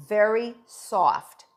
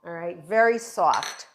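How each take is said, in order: First: Very soft drawn out slowly, weight on Very; Very soft said slow and deliberate; slow emphasis. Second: Said in the usual way. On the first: Shown as a demonstration. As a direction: stretch Very soft to stress how soft.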